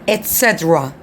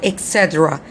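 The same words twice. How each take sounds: First: The first word is said with a T sound. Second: The first word is said without a T sound. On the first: The speaker calls it right. "It's et cetera with T" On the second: The speaker calls it wrong. "it's not et cetera"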